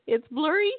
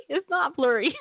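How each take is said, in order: First: BLURRY swung high with a rising end; high, playful upswing on "blurry"; questioning back-and-forth. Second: NOT hit high, end lifting; high stress on NOT; contrastive answer. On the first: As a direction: toggle to BLURRY, pitch up. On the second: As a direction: playfully flip it, leaning on "not". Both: Acted. Switching glasses, blurry versus not blurry.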